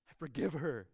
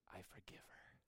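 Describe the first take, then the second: First: Said in the usual way. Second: A soft unvoiced whisper of forgiveness; whispered I forgive her. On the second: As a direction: breathe it out, barely there. Jesus repeats forgiveness softly.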